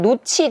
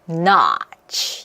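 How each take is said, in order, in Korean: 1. 한국식 음절로 발음해요. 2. 열린 영어 'ah' 모음으로 발음해요. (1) "노치가 아니라" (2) "얘도 역시 꺾여야 돼요"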